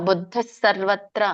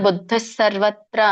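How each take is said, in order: The two takes are said the same way.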